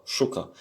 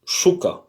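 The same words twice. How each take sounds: First: Said in the usual way. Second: « Chouka » lancé plus haut, ch bien chuintant; prononciation modèle. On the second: Shown as a demonstration. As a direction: donne le modèle « Chouka » clairement. (le professeur montre aux élèves comment dire « Chouka ») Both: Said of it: "ça se prononce comme ça".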